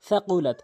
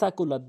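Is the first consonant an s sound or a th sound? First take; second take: th sound; s sound. First: The first consonant is a th sound. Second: The first consonant is a plain s sound. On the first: The speaker calls it right. "জিব্বার আগা সামনে দুই দাঁতের আগা" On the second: The speaker calls it wrong. "কখনোই সাকুলাত বলবেন না"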